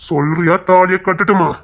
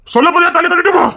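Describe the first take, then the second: First: Slow, pointed threat; slow pressing demand. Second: High, loud furious demand; angry shout. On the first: Man pushing the woman to choose, slow and menacing. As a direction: drag out the ultimatum. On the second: Man losing patience with the woman, shouting. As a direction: blow up and yell the threat. Man pressing her to answer. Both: Acted.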